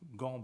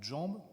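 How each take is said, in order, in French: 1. Le mot commence par un son g dur. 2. Le mot commence par un son zh doux. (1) "quand vous dites donc, ben, gambe" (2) "au lieu de jambe"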